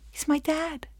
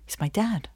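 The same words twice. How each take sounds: First: High, soft, delighted lift; happy relief. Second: Soft, subdued admission; ashamed. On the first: Defendant glad the judge is dad, happily relieved. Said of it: "I'm so happy and relieved". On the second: Defendant dreads dad seeing the accusation, ashamed. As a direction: say it quietly, with shame. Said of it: "I'm ashamed for him to see me this way". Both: Acted.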